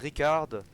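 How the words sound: The name is said with a French accent. "qui se surnomme en français"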